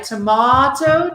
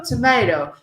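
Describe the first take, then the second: First: Tomato with a broad ah, to-MAH-to; British tomato. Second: Tomato with a long ay, to-MAY-to; American tomato. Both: Shown as a demonstration. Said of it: "the different pronunciation".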